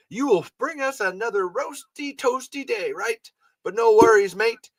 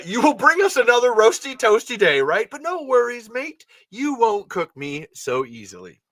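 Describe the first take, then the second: First: Leon greeting the sun. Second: Leon greeting the sun, plain-ish. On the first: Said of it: "should I have a, an Australian accent". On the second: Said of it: "we're not doing that". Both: Acted.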